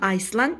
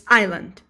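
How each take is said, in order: First: The word is said with an s sound. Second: The word is said without an s sound. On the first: The speaker calls it wrong. "Don't pronounce this word as uh, Iceland. It's not Iceland" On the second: The speaker calls it right. "it's island"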